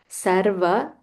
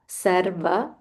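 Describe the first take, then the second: Both takes have the same delivery.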